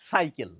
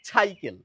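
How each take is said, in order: First: The word begins with a clear s sound. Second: The word begins with a chh sound. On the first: The speaker calls it right. "শুদ্ধভাবে উচ্চারণ করি তাহলে হবে সাইকেল, ... দন্ত স এর উচ্চারণটি পরিষ্কার বোঝা যাবে" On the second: The speaker calls it wrong. "ছ লাগিয়ে উচ্চারণ করেন"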